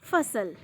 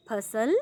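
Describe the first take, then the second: First: Lips on teeth for the f of फसल; with nukta. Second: फसल with an aspirated ph, phasal; without nukta. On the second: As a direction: puff of air on the ph of फसल. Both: Shown as a demonstration. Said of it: "और नुक्ता लगने के बाद".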